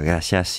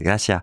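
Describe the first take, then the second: First: The final S sound is pronounced. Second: The final S sound is dropped. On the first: This is the usual way of saying it. "quand il s'agit de dire" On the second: This is how Cubans say it. "ils prononcent pas les S"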